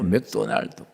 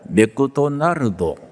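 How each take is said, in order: First: The name is said without extra vowels. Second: Extra vowels split the name into more syllables. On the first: The speaker calls it right. "우리는 맥도날드 그대로" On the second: The speaker calls it wrong. "일본어입니다"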